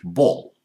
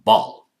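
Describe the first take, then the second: First: The vowel is a rounded O sound. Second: The vowel is a more open sound. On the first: "In British English, ball. More O sound" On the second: "American, more open"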